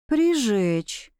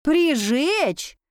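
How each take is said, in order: First: Understated, measured echo of «Прижечь»; slow repetition. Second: «Прижечь?» pitched high, as a startled question; incredulous echo. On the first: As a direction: say «Прижечь» deliberately, falling at the end. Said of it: "медленно повторила я за ней". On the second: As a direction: repeat «Прижечь?» in disbelief. Heroine echoes the word in disbelief. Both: A narrator's reading.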